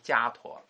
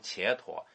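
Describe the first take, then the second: First: The first syllable sounds like 'jia'. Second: The first syllable sounds like 'qie'. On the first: The speaker calls it right. "应该读迦陀" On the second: The speaker calls it wrong. "其实不应该读伽陀"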